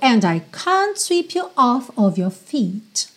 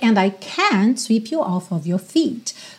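First: 'Can't' is said with a British vowel. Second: 'Can't' is said with an American vowel.

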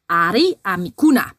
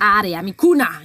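First: It is said in a friendly, nice tone. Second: It is said in an angry, nasty tone.

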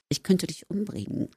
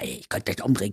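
First: It is said in a lightly ironic tone. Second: It is said in a seriously meant tone.

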